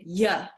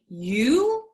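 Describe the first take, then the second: First: The word is reduced to a short 'ya'. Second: The word is said fully as 'you'. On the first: "you say yeah" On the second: "instead of saying you"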